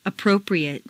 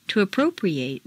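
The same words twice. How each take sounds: First: "Appropriate" ending in weak "-ee-ut"; reduced ending. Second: "appropriate" ending in long "-ee-ATE"; full A ending. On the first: Teacher models adjective "Appropriate" with reduced final vowel. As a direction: shrink the last vowel of "Appropriate". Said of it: "in an adjective is completely reduced". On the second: Teacher models verb "appropriate" with full final A. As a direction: open out the last A of "appropriate". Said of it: "it's a full A sound". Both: Shown as a demonstration.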